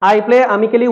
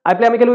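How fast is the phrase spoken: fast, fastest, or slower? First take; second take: slower; fastest. First: It is spoken at an ordinary, unhurried pace. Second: It is spoken at the quickest pace.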